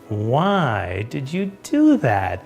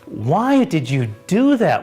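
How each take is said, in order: First: It is said in an impressed, admiring tone. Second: It is said in an accusing, critical tone. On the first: The action was clever. The speaker calls it right. "That was pretty brilliant" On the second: The action was a mistake. The speaker calls it wrong. "What were you thinking?"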